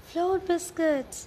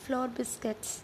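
First: Loud, high, drawn-out exclamation; excited cry. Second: Said in the usual way. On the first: A narrator's reading. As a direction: cry it out slowly in amazement. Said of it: "cried Sarah".

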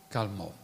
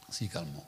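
First: Said in the usual way. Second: "si calmò" said much lower and softer, settling; quietly, as the storm goes still; hushed. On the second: Shown as a demonstration. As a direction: let "si calmò" die away like the wind.

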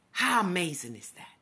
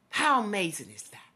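Both takes have the same delivery.

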